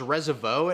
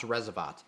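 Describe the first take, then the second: First: The final T is left silent. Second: The final T is clearly pronounced. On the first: The speaker calls it wrong. "like the T was silent" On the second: The speaker calls it right. "definitely pronounced"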